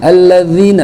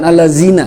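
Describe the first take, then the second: First: The middle consonant is a voiced 'th' sound. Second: The middle consonant is a plain 'z' sound. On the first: The speaker calls it right. "allazina bukan" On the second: The speaker calls it wrong. "bukan allazina"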